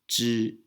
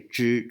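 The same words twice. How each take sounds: First: The tongue stays flat for the first sound. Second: The tongue is curled back for the first sound. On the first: "Instead, we say" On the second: "in Taiwan, we don't say"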